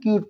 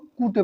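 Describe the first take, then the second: First: It is one syllable with a 'kyoo' sound. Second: It is two syllables with a plain 'koo' sound. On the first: The speaker calls it right. "तो इसे हम क्यूट पढ़ते हैं" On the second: The speaker calls it wrong. "बहुत सारे बच्चों को देखा है जो ... कूटे पढ़ते हैं"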